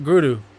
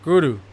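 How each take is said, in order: First: The R is a quick tap like d. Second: The same.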